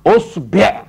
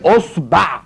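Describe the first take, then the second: First: "أصبع" with o then e, osbeʕ; deliberate teacher's "أصبع", osbeʕ; pronunciation variant. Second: "أصبع" with o then a, osbaʕ; deliberate teacher's "أصبع", osbaʕ; pronunciation variant. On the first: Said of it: "يا تفتحها يا تكسرها". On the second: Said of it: "تقول إيه؟". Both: Shown as a demonstration.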